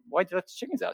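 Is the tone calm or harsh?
calm. It is said in a calm, friendly tone. It is a simple, friendly question. The speaker calls it right. "Instead of saying, hey, you know"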